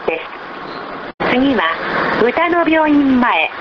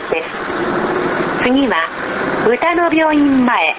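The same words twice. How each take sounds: The two takes are said the same way.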